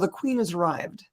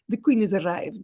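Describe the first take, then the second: First: It is said in the speaker's ordinary accent. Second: It is said with an Italian accent.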